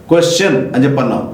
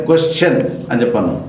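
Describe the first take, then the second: No difference in how they are said.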